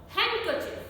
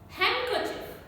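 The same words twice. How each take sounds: Both takes have the same delivery.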